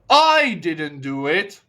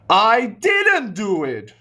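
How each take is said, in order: First: The stress falls on the word I. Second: The stress falls on the word didn't. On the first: Someone else did it. "Sounds like you mean to say somebody else did it" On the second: The action was not done at all. "Now I change the word stress to maybe didn't"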